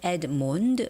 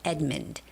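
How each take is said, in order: First: The stress is on the second syllable. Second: The stress is on the first syllable. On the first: The speaker calls it wrong. "you wouldn't say Edmund" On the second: The speaker calls it right. "because O doesn't have a stress"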